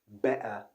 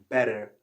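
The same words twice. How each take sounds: First: It is said with a British accent. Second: It is said with an American accent. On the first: "That's the British" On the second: "that was an American pronunciation"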